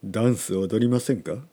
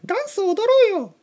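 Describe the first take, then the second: First: It is said in a low voice. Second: It is said in a high voice.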